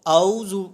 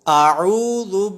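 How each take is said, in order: First: The hamza and ain sounds run together. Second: The hamza and ain sounds are clearly separate. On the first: The speaker calls it wrong. "यूं नहीं पढ़ेंगे" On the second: The speaker calls it right. "हम हमज़ा की आवाज़ अलग निकालेंगे और आइन की आवाज़ अलग निकालेंगे"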